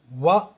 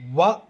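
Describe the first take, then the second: First: The syllable begins with a rounded-lip W sound. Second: The same.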